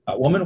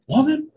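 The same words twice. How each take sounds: First: The word is said in a calm, respectful tone. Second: The word is said in a demanding, exasperated tone. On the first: The speaker is simply addressing her politely. The speaker calls it right. "I believe this is respectful when Jesus says this" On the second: The speaker is scolding and making a demand. The speaker calls it wrong. "All I can hear is"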